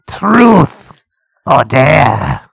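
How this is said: The put-on voice sounds cool and dramatic. The speaker calls it wrong. "you're doing it too cool"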